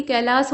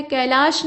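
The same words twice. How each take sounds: First: कैलाश ending in a plain s; correct form. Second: कैलाश ending in a sh sound; wrong form. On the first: Teacher correcting the word, कैलाश ending in s. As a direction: say कैलाश as "kailaas", final s. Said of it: "बल्कि कैलाश होता है". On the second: Teacher showing the wrong form, कैलाश ending in sh. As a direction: say कैलाश with final "sh". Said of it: "नहीं होता बल्कि". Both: Shown as a demonstration.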